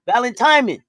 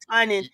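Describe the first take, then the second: First: The word is said with an M sound. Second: The word is said without an M sound. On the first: The speaker calls it right. "I'm saying that with an M" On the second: The speaker calls it wrong.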